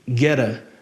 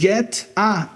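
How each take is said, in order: First: The words are joined with a quick flapped t. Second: The words are separate with a plain t sound.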